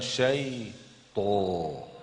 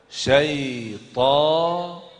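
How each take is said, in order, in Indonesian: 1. Vokalnya diucapkan dengan bibir membulat. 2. Vokalnya diucapkan tanpa membulatkan bibir. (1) "bukan syaitan" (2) "Syaitan, bukan syaitan"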